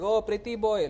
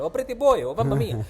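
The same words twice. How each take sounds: First: Lightly mocked Italian accent, higher pitch. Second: High, loud sing-out in a mock Italian accent; exaggerated Italian accent. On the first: Women greeting him at the brothel, mock Italian accent. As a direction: imitate a cooing Italian accent. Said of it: "most Italian accent". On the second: Women calling to him at the brothel, hammed-up Italian accent. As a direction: ham up the most Italian accent possible. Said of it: "in, in the t-, most Italian accent".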